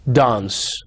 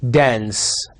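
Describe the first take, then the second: First: RP "dance" with a broad ah vowel, /dans/; British RP. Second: American "dance" with a flat nasal a, /dæ̃ns/; General American. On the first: Teacher contrasting RP "dance" for students. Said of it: "R P". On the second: Teacher contrasting American "dance" for students. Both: Shown as a demonstration.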